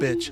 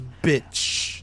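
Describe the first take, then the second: First: The word is said plainly, without extra force. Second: The word is said with heavy, forceful emphasis. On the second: "He puts emphasis on bitch. Like he goes bitch"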